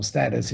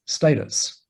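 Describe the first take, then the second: First: Status with a short first a, "STAT-us"; Status, first syllable rhyming with flat; alternative pronunciation. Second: Status with a long first a, "STAY-tus"; Status, first syllable rhyming with day; first pronunciation. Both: Shown as a demonstration. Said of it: "if you prefer to say it that way".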